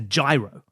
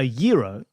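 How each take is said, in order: First: It begins like the word 'gyroscope', not 'hero'. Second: It begins like the word 'hero', not 'gyroscope'. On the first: "or say it as they read it, that's a gyro, like a gyroscope" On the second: "when I hear a Euro"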